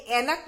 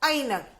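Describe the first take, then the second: First: ऐनक as "ae-nak", one pure vowel; wrong pronunciation. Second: ऐनक slowly as "ai-nak", gliding from a to i; slow teacher's model of ऐनक, "ai-nak"; ai pronunciation. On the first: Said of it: "गलत है क्योंकि ये ऐनक बोला जाता है". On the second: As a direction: open ऐनक with a clear ai diphthong. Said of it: "एक ही जगह ऐ आएगा". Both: Shown as a demonstration.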